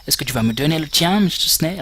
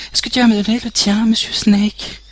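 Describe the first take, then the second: First: Said in the usual way. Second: Much higher, louder put-on woman's voice; high medic voice. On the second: Retaking the medic's line in her high voice. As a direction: switch into the medic's voice, pitched up. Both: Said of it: "j'arrive pas à faire ses voix".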